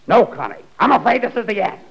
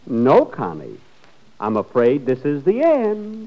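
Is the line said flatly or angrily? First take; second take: angrily; flatly. First: It is said angrily, with strong feeling. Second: It is said flatly, without feeling.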